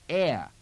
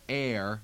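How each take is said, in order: First: The R is dropped, ending in an uh sound. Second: The word ends with a sounded R. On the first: "with the the extra sound there" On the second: "instead of air"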